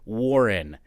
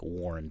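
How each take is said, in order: First: It is said in two syllables, war-ren. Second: It sounds like the word worn, one syllable. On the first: The speaker calls it right. "instead of W A R R E N Warren" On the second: The speaker calls it wrong. "you say Warren like as it's worn out, like Warren W O O R N"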